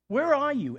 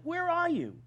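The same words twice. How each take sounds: First: High, much louder cry of where are you; loud demand. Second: Very high where are you, stress on are; high pleading cry. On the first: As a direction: call out where are you loudly, stress on where. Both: Retold or imitated. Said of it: "they basically say to God".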